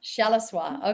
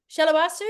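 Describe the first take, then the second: First: Shalawa with the stress on SHA, no su at the end; corrected pronunciation. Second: Shalawasu with an extra su on the end, said high and loud; guessing Shalawasu, stretching the final su; wrong guess at name. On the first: Host repeats the guest's name after being corrected, stressing SHA. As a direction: say Shalawa, ending on wa. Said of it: "The accent is on the first syllable". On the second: Host guesses the guest's name aloud, unsure of it as Shalawasu. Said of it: "you have to pronounce it for me". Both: Shown as a demonstration.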